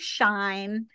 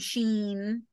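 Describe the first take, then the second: First: It is one syllable rhyming with line. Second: It is one syllable with a long ee vowel. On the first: "some people say shine" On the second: "some people say sheen"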